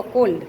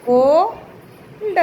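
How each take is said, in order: First: Said in the usual way. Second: cold very slow, a long "ko", pause, then "lda"; sounded out. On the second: Shown as a demonstration. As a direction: stretch the first syllable of cold and detach the ending. Teacher sounds out word for writing.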